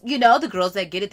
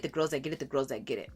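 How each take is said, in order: First: Said in the usual way. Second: Echoing the phrase, much softer each time; fading repeat. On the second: Real, not acted. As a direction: let it trail off into a soft echo.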